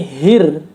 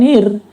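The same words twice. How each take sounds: First: The h sound is clearly breathed out. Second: The h sound is faint and unclear. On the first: The speaker calls it right. "harus diperjelas" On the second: The speaker calls it wrong. "tentu saja itu bukan hir"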